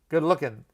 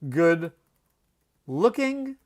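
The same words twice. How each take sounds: First: The ending is said with an n sound. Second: The ending is said with a full ng sound. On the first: The speaker calls it right. "we always drop that G with the ing ending" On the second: The speaker calls it wrong.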